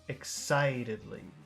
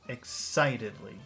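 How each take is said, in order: The two takes are said the same way.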